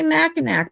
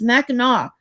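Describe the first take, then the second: First: The name is pronounced the way it is spelled. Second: The name is pronounced unlike its spelling. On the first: The speaker calls it wrong. "it looks like Mackinac. So people say Mackinac" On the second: The speaker calls it right. "I said it's Mackinac"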